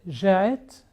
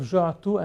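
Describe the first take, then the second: First: It is said in the Lebanese dialect form. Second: It is said in the Standard Arabic form.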